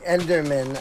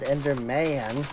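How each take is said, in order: First: The stress is on the first part, Ender. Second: The stress is on the last part, man. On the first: The speaker calls it right. "Instead of saying Enderman" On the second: The speaker calls it wrong. "big emphasis on the man for some reason"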